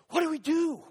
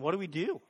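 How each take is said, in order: First: It is said in a panicked, anxious tone. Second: It is said in a calm, even tone.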